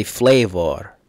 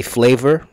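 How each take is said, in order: First: "flavor" said the British way, FLAY-vah with an open last vowel; "flavor" done as the Londoners say it, last syllable opened up. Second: "flavor" said the American way, FLAY-ver with an r-coloured ending. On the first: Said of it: "Here, they say flavor". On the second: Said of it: "we say flavor". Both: Shown as a demonstration.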